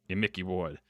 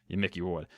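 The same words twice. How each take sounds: Both takes have the same delivery.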